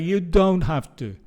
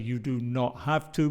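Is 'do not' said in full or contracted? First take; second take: contracted; full. First: Do not is contracted into one syllable. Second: Do not is said as two full words. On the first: The speaker calls it right. "We say" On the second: The speaker calls it wrong. "We don't say"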